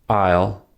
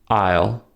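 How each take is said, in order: No difference in how they are said.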